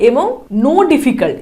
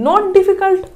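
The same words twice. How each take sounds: First: Slow, pointed read of no difficult; teacher flags the wrong wording; quoting the wrong phrase. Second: "not difficult" lifted and stressed on not; teacher gives the right wording; corrected phrase. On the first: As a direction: drag out "no difficult" to show the error. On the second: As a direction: lean on "not" to fix the error. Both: Shown as a demonstration. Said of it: "no difficult হয় নাকি?".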